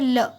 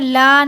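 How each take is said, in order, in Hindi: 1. स्वर को छोटा रखा गया है। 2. स्वर को खींचकर लंबा बोला गया है। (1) "लाम को हमें खींच के नहीं पढ़ना है" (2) "ला नहीं बोलेंगे"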